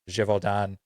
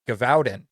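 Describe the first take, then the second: First: The name is said with French-style vowels. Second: The name is read out as spelled in English. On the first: The speaker calls it right. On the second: The speaker calls it wrong.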